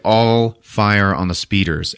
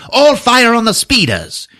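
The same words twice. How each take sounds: First: Said in the usual way. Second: High, loud, shrieked mock command; Hux echoing the order. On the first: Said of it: "Kylo's like". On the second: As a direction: parrot the order far too eagerly. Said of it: "And then Hux just goes".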